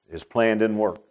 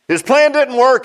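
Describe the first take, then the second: First: Said in the usual way. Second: Loud, high preacher's repeat; repeated at full preaching force; plain. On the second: Acted. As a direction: belt the line out to the church. Repeated louder and higher.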